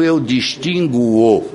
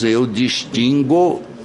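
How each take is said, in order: First: A U sound follows the G before the O. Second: The G is followed directly by the O. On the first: The speaker calls it wrong. "e não eu distinguo" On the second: The speaker calls it right. "nós dizemos eu distingo"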